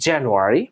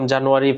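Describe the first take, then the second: First: It is said with an English-style pronunciation. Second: It is said with a Bengali-style pronunciation. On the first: The speaker calls it right. "You have to pronounce" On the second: The speaker calls it wrong. "আমরা আগে শিখতাম"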